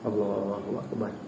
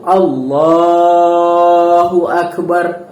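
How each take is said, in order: First: It is said lazily and with little energy. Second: It is said clearly and with full energy. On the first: The speaker calls it wrong. "nak sebut Allahu Akbar takbiratul ihram tu pun malas" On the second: The speaker calls it right. "sebutan Allahu Akbar tu mesti jelas"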